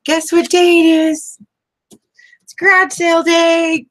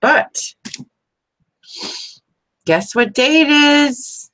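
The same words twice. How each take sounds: First: Excited mom announcement. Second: High, slow, teasing sing-song; excited teasing. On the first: Retold or imitated. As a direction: announce it like waking kids for a treat. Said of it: "I used to say that to my kids". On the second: Real, not acted. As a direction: stretch it out like a fun surprise. Teasing viewers with day announcement.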